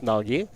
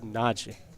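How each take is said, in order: First: The ending is pronounced clearly and fully. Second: The ending y sound is almost silent. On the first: The speaker calls it wrong. "it's not pronounced Nagi" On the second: The speaker calls it right. "it's more Naji"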